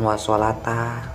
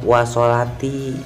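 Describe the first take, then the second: First: The last word ends with an a vowel. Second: The last word ends with an i vowel. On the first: The speaker calls it wrong. "Itu bukan wa sholata" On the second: The speaker calls it right. "itu dibacanya wa sholati"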